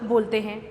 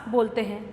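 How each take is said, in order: The two takes are said the same way.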